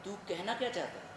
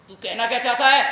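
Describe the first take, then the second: First: Soft, held-back challenge; restrained question. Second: Loud, confrontational challenge; heated question, much louder; angry demand. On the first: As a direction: ask it quietly, holding back. First asking, held back. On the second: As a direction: raise your voice and demand an answer. Same challenge repeated, now angry. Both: Acted.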